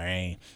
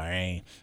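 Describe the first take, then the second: First: It is said with an American accent. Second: It is said with an American accent.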